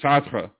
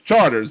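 First: The name is said the French way. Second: The name is said like English charters. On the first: The speaker calls it right. "it should be Chartres" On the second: The speaker calls it wrong. "That's Charters"

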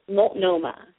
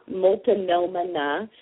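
First: The word is said in three clear syllables. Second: The word is not said in three clear syllables. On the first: The speaker calls it right. "Three syllables" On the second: The speaker calls it wrong. "it's not Multnomah"

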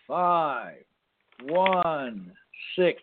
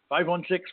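First: It is said slowly and deliberately. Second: It is said at a normal, quicker pace.

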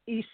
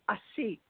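First: The word ends without any t sound. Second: The word ends with a clear t sound. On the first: "Sometimes the T is not pronounced" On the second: "it is S-T, just like a seat"

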